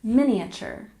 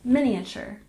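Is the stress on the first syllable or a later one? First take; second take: first; first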